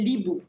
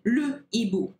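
First: The article's vowel is dropped and joined to hibou. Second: The article's vowel is pronounced separately before hibou. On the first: The speaker calls it wrong. "we do not say l'hibou" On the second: The speaker calls it right. "we say le hibou"

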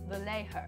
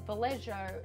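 First: The name is said without the broad Australian pronunciation. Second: The name is said with a broad Australian pronunciation. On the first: The speaker calls it right. "instead of Vallejo" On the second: The speaker calls it wrong. "my very ochre Australian pronunciation when I said Vallejo"

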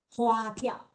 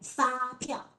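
First: The word begins with an h sound. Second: The word begins with an f sound.

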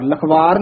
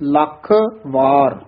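First: The two words are run together as one. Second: The two words are said with a break between. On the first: The speaker calls it wrong. "Lakhwar नहीं कहना" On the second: The speaker calls it right. "वार वखरा बोलना है"

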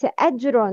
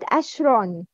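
First: The middle consonant is a j sound. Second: The middle consonant is an sh sound. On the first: The speaker calls it right. "Not to convert Jim into Sheen when pronouncing. It's Ajrun" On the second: The speaker calls it wrong. "not Ashron"

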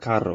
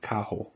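First: The double R is rolled. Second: The double R sounds like an H. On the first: The speaker calls it wrong. "it's not carro" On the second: The speaker calls it right. "it's actually a H sound"

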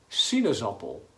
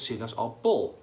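First: The stress is on the first syllable, si. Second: The stress is not on the first syllable.

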